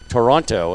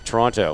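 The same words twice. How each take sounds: First: Every sound is carefully and fully enunciated. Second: It is said casually, without careful enunciation. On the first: This is how a broadcaster is expected to say it. "you have to call it Toronto" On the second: This is how people normally say it. "which is the way you normally say it"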